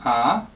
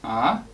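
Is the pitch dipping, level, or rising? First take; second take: rising; rising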